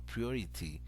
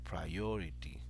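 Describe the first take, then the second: First: The stress is on the first syllable. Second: The stress is on a middle syllable. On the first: The speaker calls it wrong. "give a stress to the first syllable of the word" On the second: The speaker calls it right. "So the stress goes in the middle"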